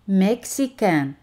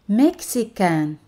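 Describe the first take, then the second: No difference in how they are said.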